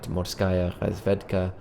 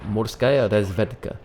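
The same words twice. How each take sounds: First: It is said with a strong French accent. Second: It is said closer to a Russian accent. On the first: The speaker calls it wrong. "that was a very French accent on my Russian there" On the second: The speaker calls it right. "That might be a little closer"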